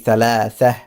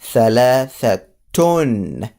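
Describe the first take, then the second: First: The word ends with a soft h sound. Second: The word ends with a t sound plus vowel. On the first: The speaker stops after the word. "if I were to stop and put sukun in here" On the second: The speaker is continuing the sentence. "if I were to continue or just put a tone in it ... I will pronounce the ta"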